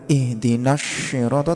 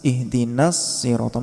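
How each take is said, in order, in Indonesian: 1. Bunyi pertama dari sirata condong ke 'sh'. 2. Bunyi pertama dari sirata condong ke 's'. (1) "Condongnya bukan" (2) "tapi ... Miripnya ke sin, bukan ke shin"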